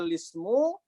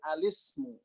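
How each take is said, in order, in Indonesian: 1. Kata itu langsung dimulai dengan suku kata li. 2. Kata itu dimulai dengan a sebelum li. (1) "dia menjadi nakal dengan dibaca lismu" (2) "dia menjadi iltiqau sakinain dengan alismu"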